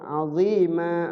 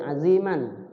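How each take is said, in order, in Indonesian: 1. Berakhir dengan vokal panjang tanpa n. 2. Berakhir dengan vokal pendek ditambah n. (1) "karena diwakafkan di situ, berhenti di situ, maka setiap huruf yang berbaris fathatain jadi panjang" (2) "Dia sebenarnya dibacanya pendek"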